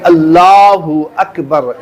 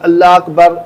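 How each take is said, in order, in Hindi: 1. पहला शब्द एक साफ़ अंतिम स्वर के साथ खत्म होता है। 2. पहला शब्द बिना अंतिम स्वर के खत्म होता है। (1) "अल्लाहु अकबर इस तरीके से बिल्कुल साफ साफ पढ़ना है" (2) "अल्लाह अकबर इस तरीके से नहीं"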